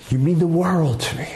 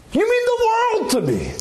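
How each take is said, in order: First: Plainly sincere, not overdone. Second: Overly effusive. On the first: To a child, simply and sincerely saying you mean the world. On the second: To a child, gushing you mean the world, far too effusive. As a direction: gush it way over the top. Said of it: "you don't have to be so effusive". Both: Shown as a demonstration.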